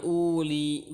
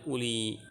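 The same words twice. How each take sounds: First: Uli with a long, drawn-out "uu" at the start; overlong first vowel. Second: Uli with a short first u; short first vowel. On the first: Teacher showing students a misreading, uli with stretched first u. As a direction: stretch the opening u of uli slowly. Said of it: "Bukan uli". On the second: Teacher correcting the misreading, uli with short opening u. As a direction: say uli without stretching the opening u. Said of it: "tapi ulu dan uli". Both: Shown as a demonstration.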